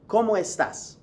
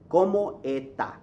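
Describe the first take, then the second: First: The final s sound is clearly pronounced. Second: The final s sound is dropped entirely. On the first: "Now listen carefully to how I'm saying it. ... You hear the S's" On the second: "They got rid of the S's"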